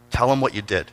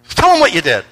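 First: Said in the usual way. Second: Higher, louder urging; insistent retold prodding. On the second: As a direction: press her to tell, voice raised. Retold repeated, insistent prompting.

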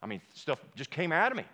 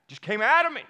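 First: Said in the usual way. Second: High and loud, bursting out; loud emphatic repeat. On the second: Real, not acted. Pastor to congregation, loudly stressing his outburst.

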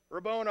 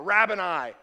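First: Rabboni with a long O in the middle; alternate pronunciation. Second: Rabboni with first syllable rhyming with cab; alternate pronunciation. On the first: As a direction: say Rabboni as ruh-BOH-nye, higher. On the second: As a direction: say Rabboni as RAB-uh-nye, loudly. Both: Shown as a demonstration. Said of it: "I don't know how you say it".

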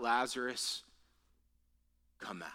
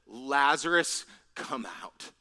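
First: Soft, low call sinking to a whisper; quiet retold summons, nearly whispered; hushed command. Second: Name called loudly, then dropping away; measured mock cry, loud only on the name; restrained calling out. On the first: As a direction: say the command gently, with a pause after the name. Same command repeated, now hushed. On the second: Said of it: "he cried out with a loud voice".

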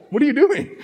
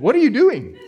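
First: High, half-laughing retake of the shout; mild startled cry. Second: Sharp high shout at a driver; startled shout. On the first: Shown as a demonstration. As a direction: redo it lighter, amused at yourself. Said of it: "I was just like". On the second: Retold or imitated. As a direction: yell it as the car comes at you. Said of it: "I think I did that just like that".

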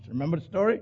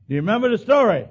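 First: Said in the usual way. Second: Higher, louder repeated question. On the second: Real, not acted. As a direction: push the congregation for an answer. Asks congregation twice.

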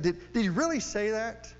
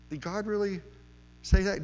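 First: Higher, leaning hard on really; mocking serpent, pushed harder. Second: The serpent sneering at God's word, testing Eve; mocking serpent. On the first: Serpent pressing Eve a second time, higher mock disbelief. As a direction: press the doubt a second time, more incredulous. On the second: Serpent tempting Eve, mocking God's word, lightly sneering. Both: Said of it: "He is mocking it".

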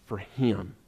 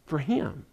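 First: Dropped, softer "for him" trailing away; soft emphasis. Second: "For him" restated, firmer pitch but still soft; repeated for weight. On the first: Preacher stressing Nathanael's faith, murmuring the words quietly. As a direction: let "for him" fall soft and low. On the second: Preacher repeating to congregation, quietly pressing the point. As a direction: echo "For him" to drive it home. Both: Real, not acted.

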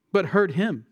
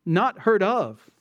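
First: "heard him" as the emphatic correction; contrastive correction. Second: Slow, deliberate "not heard of"; "heard of" spaced out slowly; contrastive stress. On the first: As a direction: land firmly on "him" after a short pause. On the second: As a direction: set up the contrast, weighting "heard of" as the rejected reading. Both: Shown as a demonstration. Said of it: "this verse here is actually emphasizing".

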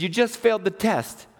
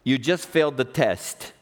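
First: Higher, insistent repeat of a verdict; acted-out divine correction; God. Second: God's verdict. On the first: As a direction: cut through the protest firmly. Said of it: "He said". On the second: Retold or imitated. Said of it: "I heard God say".

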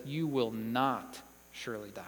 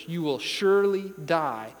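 First: Quiet contradiction, weight on "not"; stress on NOT. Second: Emphatic decree leaning on "surely"; stress on SURELY. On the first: Preacher voicing the serpent refuting God, quietly stressing "not". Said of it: "And the serpent says". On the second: Preacher quoting God's warning, firm stress on "surely". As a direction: SURELY hit hard and firm. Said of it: "it's the same type of word". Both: Acted.

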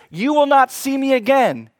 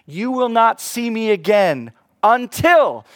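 First: "will" and "not" punched; higher, louder "You will not see me again"; stress on will not. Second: "until" drawn out and stressed; slow, louder "until" with falling tune. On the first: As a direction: hit "will not" hard. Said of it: "No, he says". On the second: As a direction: lean hard on "until". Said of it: "does he say you'll never". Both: Shown as a demonstration.

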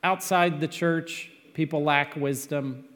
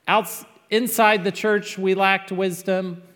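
First: "outside" given the weight, steadier level; "outside the church" stressed, calmer. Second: "inside" pushed higher and louder; "inside the church" hit up high and loud; stress on inside. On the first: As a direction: lean on "outside" as the contrast. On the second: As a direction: lean hard on "inside" to set it against outside. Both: Shown as a demonstration. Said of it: "I want to be an equal opportunity offender".

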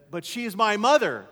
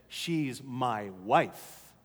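First: Higher, louder son's objection; protesting son. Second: Low, very slow, weighted reply; firm father. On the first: Son objecting to his father's rebuke, protesting. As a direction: push back in a raised voice. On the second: Father setting his adolescent son straight, firm. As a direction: lay down each word slowly, lower. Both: Retold or imitated.

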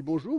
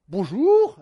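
First: Said in the usual way. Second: Much louder, higher booming baker bonjour; loud baker greeting. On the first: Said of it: "Alors, on dit". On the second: Retold or imitated. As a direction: boom out the welcome from the bakery. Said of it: "Alors, il dit".

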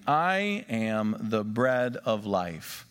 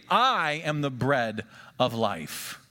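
First: "I am the bread of life" drawn out slowly, word by word; slow emphatic reading. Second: Said in the usual way. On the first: Shown as a demonstration. Pastor rereading the verse for the congregation, slow and weighty. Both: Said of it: "let's read that verse again".

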